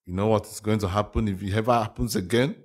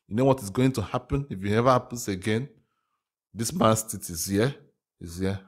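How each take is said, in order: First: Said in the usual way. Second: A light, badly faked Russian accent; hammy mock Russian, barely shifted from own voice; a hint of a joke Russian accent; terrible Russian accent. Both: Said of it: "I know that was a terrible Russian accent".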